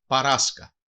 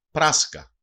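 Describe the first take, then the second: First: Παράσκα with an extra "a" between p and r; "παράσκα", opening pa-ra rather than pra; dialect variant pronunciation. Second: Said in the usual way. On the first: Shown as a demonstration. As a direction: say παράσκα in three syllables, pa-RAS-ka. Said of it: "Προφέρεται και ως". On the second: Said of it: "Προφέρεται και ως παράσκα".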